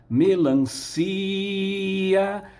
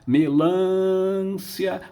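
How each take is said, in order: First: The stress and lengthening fall on 'ci'. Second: The stress falls on a syllable other than 'ci'. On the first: The speaker calls it right. "intuitivamente ele espicha a vogal ah, da sílaba tônica" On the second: The speaker calls it wrong. "Ninguém fala melância"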